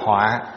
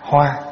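First: The word is said low, short and glottalized. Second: The word is said on a level, even pitch. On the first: It means disaster. "nó thành dấu nặng ở dưới là họa" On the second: It means flower. "không để dấu"

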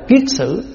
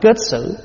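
First: The first syllable has the vowel iê. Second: The first syllable has the vowel ê. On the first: "gọi là kiết xử" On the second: "Có khi mình đọc là kết xử"

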